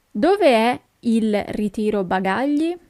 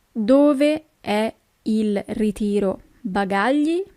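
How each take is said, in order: First: Said in the usual way. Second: Each syllable of "Dove è il ritiro bagagli?" spelled out slowly; slow teaching repeat. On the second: Shown as a demonstration. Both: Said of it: "where is the baggage claim".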